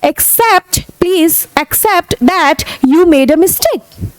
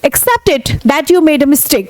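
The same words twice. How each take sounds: First: Slow, firm request; slow demand. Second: Slow demand. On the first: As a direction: press them to admit it, slowly. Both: Shown as a demonstration. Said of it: "तो आप बोले".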